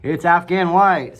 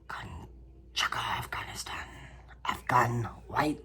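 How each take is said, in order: First: Louder, higher, slow; loud clear correction; correct name said loud. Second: Slow hushed whisper; slow mysterious whisper; dramatic whisper. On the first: Shown as a demonstration. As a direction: announce the right name firmly. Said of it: "that's not what it's called". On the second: Pretend. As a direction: whisper the name like a secret. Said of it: "I don't know why I said it like that".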